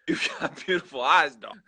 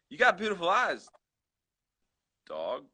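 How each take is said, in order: First: It is said flatly, without excitement. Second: It is said excitedly, as an exclamation.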